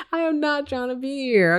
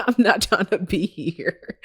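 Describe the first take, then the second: First: "am" punched much higher, then a falling end; stress on AM. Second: Said in the usual way. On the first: Retold or imitated. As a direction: lean hard on "am" to insist. Repeats with stress on am.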